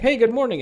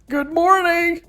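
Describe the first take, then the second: First: It is said calmly and with low energy. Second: It is said cheerfully and with high energy.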